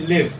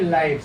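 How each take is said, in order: First: It sounds like 'live' in 'to live'. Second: It sounds like 'live' in 'a live match'. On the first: To stay alive or survive. The speaker calls it right. "say live" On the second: A match is happening now. The speaker calls it wrong. "Don't say live"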